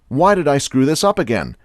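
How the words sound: It is said in a harsh, self-critical tone. The speaker is blaming themselves. The speaker calls it wrong. "constant self-criticism"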